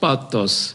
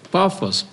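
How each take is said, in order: First: The middle consonant is a t sound. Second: The middle consonant is an f sound.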